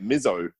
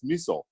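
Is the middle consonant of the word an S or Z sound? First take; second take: Z; S. First: The middle consonant is a buzzing Z sound. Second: The middle consonant is a hissing S sound. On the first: This is an anglicized mispronunciation. The speaker calls it wrong. "where the fuck do you get a Z from in miso" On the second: This is how it is said in Japanese. The speaker calls it right. "in Japanese it's miso"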